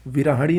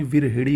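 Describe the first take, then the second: First: विरहणी with "ha" in the middle; an a sound after the h in विरहणी; wrong pronunciation. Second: विरहिणी with "hi" in the middle; an i sound after the h in विरहिणी; correct pronunciation. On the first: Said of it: "नहीं". (विरहणी में "ह" पर "अ" स्वर) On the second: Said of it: "होता है". (विरहिणी में साफ़ "हि") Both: Shown as a demonstration.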